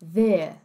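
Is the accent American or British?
British. It is said with a British accent.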